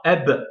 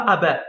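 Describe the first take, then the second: First: "Ab" closed on the b with no following vowel; blocked final b. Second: "ab" said with an open vowel after the b, as "aba"; added final vowel. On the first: Teacher giving students the correct reading, "Ab" blocked on b. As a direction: say "Ab" as one syllable, stopping on b. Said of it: "ça veut dire en bloc". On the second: Teacher showing the wrong reading, "ab" voiced as "aba". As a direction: let "ab" open into two syllables, a-ba. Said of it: "On dit pas ab". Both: Shown as a demonstration.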